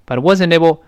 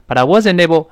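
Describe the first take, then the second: No difference in how they are said.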